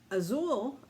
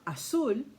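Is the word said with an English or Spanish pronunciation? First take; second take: English; Spanish. First: It is said with an English pronunciation. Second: It is said with a Spanish pronunciation.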